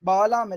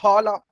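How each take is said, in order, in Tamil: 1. முதல் மெய் அல்பபிராணம், மூச்சு இல்லாமல். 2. முதல் மெய் மகாபிராணம், மூச்சுடன். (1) "இல்ல" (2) "இங்க மகாபிராண அக்ஷரம் பா இருக்கு"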